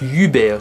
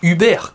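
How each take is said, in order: First: The name is said with an English accent. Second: The name is said with a French accent. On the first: "à l'anglaise je dirais bien que ça se dit Hubert" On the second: "en français ça se dirait plus Hubert, comme l'entreprise Uber"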